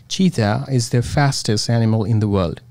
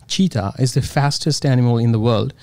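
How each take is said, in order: Both takes have the same delivery.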